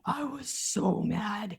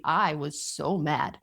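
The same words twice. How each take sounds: First: Soft, slow, drawn-out so mad; slow emphatic. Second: Said in the usual way. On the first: Shown as a demonstration. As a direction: draw out "so mad" quietly and slowly, leaning on "mad".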